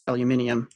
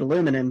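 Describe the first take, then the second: First: The word is said as aluminium. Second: The word is said as aluminum. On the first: "it's supposed to be pronounced" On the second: "used to pronounce it"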